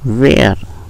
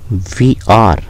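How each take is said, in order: First: It is squeezed into one short syllable. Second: Two separate full words are said. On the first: "इसको बोलेंगे वेयर" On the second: "फिर है वी आर"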